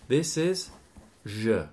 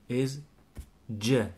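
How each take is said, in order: First: The consonant is a soft 'zh' sound. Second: The consonant is a hard 'dj' sound. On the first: "As in je m'appelle" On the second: "with de plus je"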